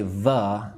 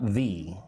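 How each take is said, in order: First: "the" said as thuh; reduced thuh for "the"; weak form of THE. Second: "the" said as thee; full thee for "the"; strong form of THE. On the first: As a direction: say "the" with a schwa. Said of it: "I'm going to say the, not the". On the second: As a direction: say "the" with a long ee. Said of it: "not the". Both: Shown as a demonstration.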